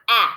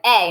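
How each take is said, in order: First: "A" said as short a, as in cat; not the letter name: short "A"; short vowel A. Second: "A" said as the letter name, ay; long "A", as in shade; long vowel A. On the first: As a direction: say "A" as a flat short aah sound. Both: Shown as a demonstration. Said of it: "this A is a long vowel".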